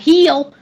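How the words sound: The vowel is stretched like heel, Southern style.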